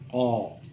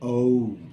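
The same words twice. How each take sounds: First: The letter is said as its speech sound. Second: The letter is said as its alphabet name. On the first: "But the sound is O" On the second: "the name is O"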